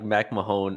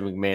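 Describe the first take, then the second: First: The last syllable sounds like 'hone'. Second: The last syllable sounds like 'hon'. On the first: The speaker calls it wrong. "I said like Mac Mahone initially" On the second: The speaker calls it right. "that's how you say it"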